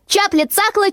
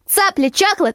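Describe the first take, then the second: First: The first word starts with a ch sound. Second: The first word starts with a ts sound. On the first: The speaker calls it wrong. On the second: The speaker calls it right.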